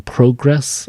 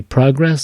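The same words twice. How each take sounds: First: Progress with stress on the second syllable, pro-GRESS; wrong stress on progress. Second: Progress with stress on the first syllable, PRO-gress; correct stress on progress. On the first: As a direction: say progress as proGRESS, the mistaken way. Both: Shown as a demonstration. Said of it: "it should be progress".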